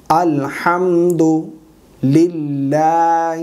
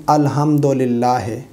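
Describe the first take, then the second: First: الحمدللہ very slow, ending in a clear "hi"; correct recitation. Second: الحمدللہ ended in "he", with "dolillah" vowels; common mispronunciation. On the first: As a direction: stretch الحمدللہ as "alhamdu-lillaahi". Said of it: "الحمدللہ ہے نہیں". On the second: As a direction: say الحمدللہ as "alhamdolillahe", unstretched. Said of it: "اس میں بعض لوگ غلطی کر جاتے ہیں". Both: Shown as a demonstration.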